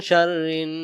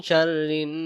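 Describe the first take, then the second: No difference in how they are said.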